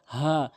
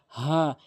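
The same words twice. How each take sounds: First: "হা" with an open, easy h; correct light Ha. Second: "হা" with a tight, raspy mid-throat h; forbidden tight Ha. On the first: Teacher giving the correct letter, open light "হা". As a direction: let "হা" out without squeezing the throat. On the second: Teacher warning against this, throaty "হা". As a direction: squeeze the h of "হা" in the throat. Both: Shown as a demonstration. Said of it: "কখনোই হা বলবেন না".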